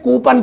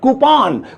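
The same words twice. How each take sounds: First: The second syllable has a short 'uh' vowel. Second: The second syllable has a rounded 'aw' vowel. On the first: The speaker calls it wrong. "लेकिन यह गलत है" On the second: The speaker calls it right. "इसकी सही pronunciation है"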